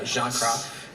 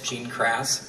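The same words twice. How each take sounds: First: The name is said with a French accent. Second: The name is said with an American accent. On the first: "but uh, Jean Cras is" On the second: "If I say it in American"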